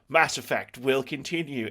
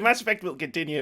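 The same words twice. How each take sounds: First: It is said in a menacing, ominous tone. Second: It is said in a happy, excited tone. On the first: More of these games is a bad thing. "It sounded like a threat" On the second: More of these games is good news. "like yay"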